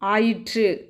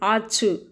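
First: The word is said in its full formal form. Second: The word is said in a short colloquial form. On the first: The speaker calls it right. "திருத்தம் ஆயிற்று" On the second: The speaker calls it wrong. "வழுச்சொல் ஆச்சு"

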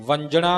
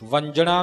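First: The middle consonant sounds like jh. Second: The same.

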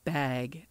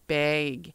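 First: The vowel is open, carefully pronounced. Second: The vowel is raised, sounding close to 'beg'. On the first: "I'm trying very hard to enunciate bag" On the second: "I say bag. Like beg"

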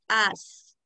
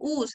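First: The vowel sounds like Spanish 'a'. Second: The vowel sounds like Spanish 'u'. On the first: The speaker calls it right. "es as" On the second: The speaker calls it wrong. "no es us"

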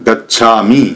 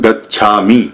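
Both takes have the same delivery.

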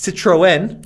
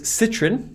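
First: It is said in a Northern US way. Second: It is said in a British way.

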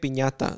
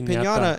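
First: The word is said with a Spanish accent. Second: The word is said with an English accent. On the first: "If I'm not going to be like" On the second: "I'm going to say piñata"

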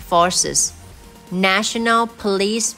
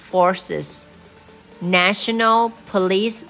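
No difference in how they are said.

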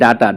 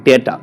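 First: The first vowel sounds like 'ah'. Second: The first vowel sounds like 'ay'. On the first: The speaker calls it wrong. "যেমন আমরা পড়ি ডাটা" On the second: The speaker calls it right. "ডাটা আসলে উচ্চারণটা হয় ডেটা"

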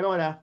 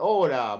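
First: The word is mumbled and poorly articulated. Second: The word is clearly and fully articulated. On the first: The speaker calls it wrong. "capaz que tu vieja te entendió" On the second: The speaker calls it right. "Ahí tenés que vocalizar"

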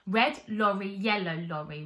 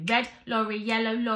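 First: The words are said at a slow pace. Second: The words are said at a fast pace. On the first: "let's start slower" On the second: "then we're going to build up speed"

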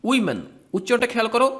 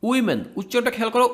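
No difference in how they are said.

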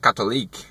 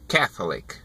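First: The stress falls on the second syllable. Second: The stress falls on the first syllable. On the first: The speaker calls it wrong. "Eu falava Catholic" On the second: The speaker calls it right. "A pronúncia correta é Catholic"

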